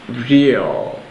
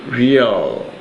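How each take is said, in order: The two takes are said the same way.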